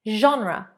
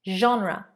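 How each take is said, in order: Both takes have the same delivery.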